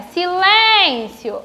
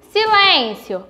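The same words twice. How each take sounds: First: "Silêncio" with LÊN drawn out long; slow "Silêncio", nasal ê held out; calling the word. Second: Said in the usual way. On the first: Shown as a demonstration. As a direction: stretch the middle syllable of "Silêncio" as if calling it. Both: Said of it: "eu chamo pela palavra".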